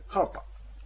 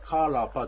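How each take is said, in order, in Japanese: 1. rとpの間に母音は発音しません。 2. rとpの間に母音を発音します。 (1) "というふうに言うと、これは、あの、発音できます" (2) "じゃなくて"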